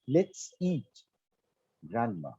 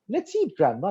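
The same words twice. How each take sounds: First: There is a pause before the last word. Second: The words run on without a pause. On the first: Grandma is the one to be eaten. "Now say this with a pause" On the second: Grandma is invited to eat together. "Let's come, grandma. Let's eat together"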